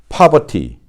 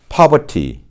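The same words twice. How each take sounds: First: The r is silent and the t is crisp. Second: The same.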